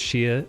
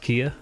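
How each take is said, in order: First: The syllable begins with a 'ch' sound. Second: The syllable begins with a 'k' sound. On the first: The speaker calls it wrong. "the Chia isn't pronounced Chia" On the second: The speaker calls it right. "it's pronounced Kia"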